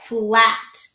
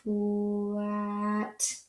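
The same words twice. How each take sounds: First: Said in the usual way. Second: "Flat," stretched soft as one; slow blend. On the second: Shown as a demonstration. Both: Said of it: "Let's try it again".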